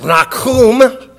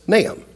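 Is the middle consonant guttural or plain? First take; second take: guttural; plain. First: The middle consonant is a guttural sound. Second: The middle consonant is a plain sound. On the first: This is the original Hebrew form of the name. "And there's the guttural sound. Nahum is how you would pronounce it in Hebrew" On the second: This is the English form of the name. "in the English and Latin Bible, the name of the book is Nahum"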